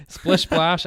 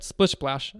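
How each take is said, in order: First: Splish Splash said through a laugh, a little louder. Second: Said in the usual way. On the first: Retold or imitated. Gloating to a friend about taunting a rival player, laughing. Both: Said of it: "I said".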